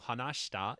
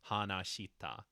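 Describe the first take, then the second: First: The vowel after 'sh' is silent. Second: The vowel after 'sh' is clearly voiced. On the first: "closer to shita if you want to sound more natural" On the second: "rather than hanashita, even though that's not technically wrong"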